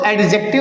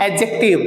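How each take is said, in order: First: The d sound is clearly pronounced. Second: The d sound is left silent. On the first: The speaker calls it wrong. "इसको एडजेक्टिव नहीं बोला जाता" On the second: The speaker calls it right. "It is pronounced एडजेक्टिव, डी is silent here"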